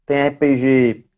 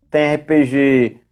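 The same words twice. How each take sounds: The two takes are said the same way.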